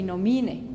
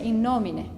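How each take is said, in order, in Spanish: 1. El acento está en la segunda sílaba de nomine. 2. El acento está en la primera sílaba de nomine. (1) "acentúo el mi ... Y está mal" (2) "está marcado un acento en el no. Porque se pronuncia in nomine"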